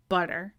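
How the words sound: The middle t is a quick soft tap. "In American English, we don't. It's butter"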